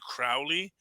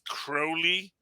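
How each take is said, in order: First: The name does not rhyme with holy. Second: The name rhymes with the word holy. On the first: The speaker calls it wrong. "as opposed to Crowley" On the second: The speaker calls it right. "that is Crowley ... it's Crowley, a master of magic and holy"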